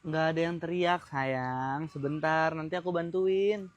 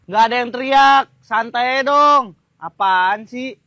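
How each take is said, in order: First: Low, soft soothing; quiet, low and patient; calm reassurance. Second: Loud, defensive retort; raised, exasperated voice; irritated denial. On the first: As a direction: reassure your partner gently. First take, he soothes. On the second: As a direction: deny it loudly and crossly. Second take, he snaps. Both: Acted.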